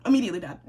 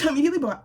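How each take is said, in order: First: Said in the usual way. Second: "Immediately bad" said through a laugh, a bit higher and louder; laughing repeat of "Immediately bad". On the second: Real, not acted. Repeated verdict, second laughing.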